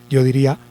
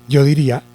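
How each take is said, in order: The two takes are said the same way.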